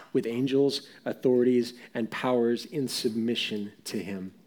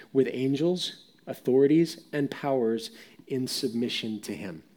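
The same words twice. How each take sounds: No difference in how they are said.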